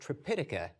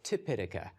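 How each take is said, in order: First: The word begins with a 'tr' sound. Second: The word begins with a plain 't' sound. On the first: This is the Sanskrit form of the name. "Tripitaka is the Sanskrit pronunciation" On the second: This is the Pali form of the name. "Tipitaka is the, is the Pali pronunciation"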